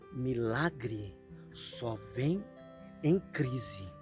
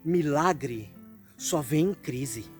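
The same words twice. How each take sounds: First: The phrase is said very slowly. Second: The phrase is said at a normal pace.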